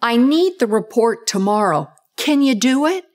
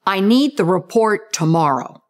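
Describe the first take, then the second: First: Statement then a rising tag question; higher pitched, rising at the end; tag question up talk. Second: Firm statement, pitch going down at the end; flat declarative with a downward finish; declarative, pitch falling. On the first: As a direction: tack on the question with pitch going up. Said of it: "So it sounds like this". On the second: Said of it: "Sounds like this". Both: Shown as a demonstration.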